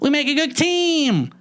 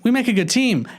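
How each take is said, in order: First: It is said in a lively, animated way. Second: It is said in a flat, muted way.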